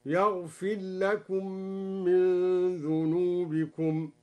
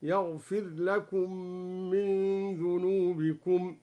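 First: "يغفر لكم" as yaghfillakum, r lost in l; slow recitation, "يغفر" melting into "لكم"; merged raa. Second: "يغفر لكم" with r sounded apart, yaghfir lakum; slow recitation, distinct r in "يغفر"; clear raa. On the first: Sheikh demonstrates both readings, here "يغفر لكم" merged as yaghfillakum. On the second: Sheikh demonstrates both readings, here "يغفر لكم" with clear r. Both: Shown as a demonstration. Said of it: "بإدغام الراء وإظهارها".

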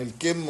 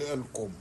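First: الكم with an i vowel, "al-kimm"; kasra on kaf. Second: الكم with a u vowel, "al-kumm"; damma on kaf. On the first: Linguist separates two look-alike words, الكم said "al-kimm". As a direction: say الكم with short i after k. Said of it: "جمع كم بالكسر". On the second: Linguist names the sleeve word in contrast, الكم said "al-kumm". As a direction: say الكم with short u after k. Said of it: "بضم الكاف". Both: Shown as a demonstration.

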